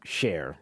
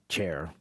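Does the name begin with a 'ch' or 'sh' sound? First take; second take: sh; ch. First: The name begins with a soft sh sound. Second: The name begins with a hard ch sound. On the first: The speaker calls it right. "No, Cher" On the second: The speaker calls it wrong. "not Chair"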